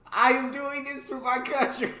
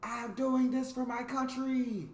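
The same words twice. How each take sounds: First: High, loud hammed-up cry; triumphant mock cry. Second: High, drawn-out battle cry; heroic cry. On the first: New Zealander shoving the Australian out, mock heroic cry. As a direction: belt it out high, on the edge of laughter. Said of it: "and cried". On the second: Acted. Englishman leaping from the plane, heroic cry. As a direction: cry it out high and slow, stretching the words. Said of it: "leapt out of the plane with the cry".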